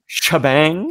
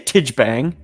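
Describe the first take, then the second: First: The name begins with an 'sh' sound. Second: The name begins with a 't' sound. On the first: This is believed to be the proper pronunciation. The speaker calls it right. "I believe Shabang is correct" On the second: This is how it was said in childhood. The speaker calls it wrong. "as a child, I used to say Tijbang"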